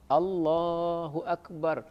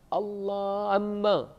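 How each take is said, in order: First: The phrase is said clearly, with every sound present. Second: The phrase is garbled, with the ending sounds missing. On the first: The speaker calls it right. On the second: The speaker calls it wrong.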